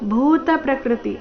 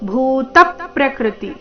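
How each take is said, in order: First: The syllable 'ta' carries no stress. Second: The syllable 'ta' carries the stress. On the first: The speaker calls it wrong. "ಅಂತ ಇಲ್ಲ" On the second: The speaker calls it right. "ತ ಮೇಲೆ ಪದ್ ಆಘಾತ"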